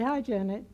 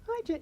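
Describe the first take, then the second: First: The greeting sounds calm and ordinary. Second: The greeting sounds bright and enthusiastic.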